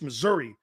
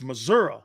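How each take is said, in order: First: It is said in a plain, general way. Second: It is said with a local Midwestern pronunciation. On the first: "It's not just Missouri" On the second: "it's Missouri. That's a true Midwesterner right there"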